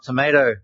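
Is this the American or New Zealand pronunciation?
American. It is said with an American pronunciation. The speaker calls it wrong. "not tomato"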